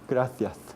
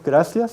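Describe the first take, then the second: First: The c sounds like a th. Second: The c sounds like an s. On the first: This is the Castilian pronunciation. The speaker calls it right. "sino gracias" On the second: This is the Latin American pronunciation. The speaker calls it wrong. "No es gracias"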